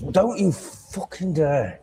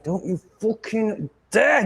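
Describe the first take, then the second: First: Higher, slow menacing warning; angry warning. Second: Much higher, slow furious warning; a sharper, higher furious warning; angrier warning. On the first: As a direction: stop the cat cold with a threat. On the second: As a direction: repeat the threat, angrier. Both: Real, not acted. Warning the cat off wire.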